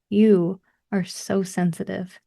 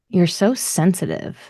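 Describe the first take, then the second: First: It is said in a warm, gentle tone. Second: It is said in a harsh, belittling tone. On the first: Being sensitive is treated as a gift. "grab them gently by the shoulders and be like" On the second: Being sensitive is treated as a flaw. "from the bully would sound like"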